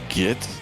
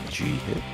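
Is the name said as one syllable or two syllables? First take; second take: one syllable; two syllables. First: It is said as one syllable, git. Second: It is said as two syllables, G hit. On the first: The speaker calls it wrong. "the correct correct way to say it is not git like mental" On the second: The speaker calls it right. "It's G hit"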